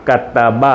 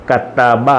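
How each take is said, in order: The two takes are said the same way.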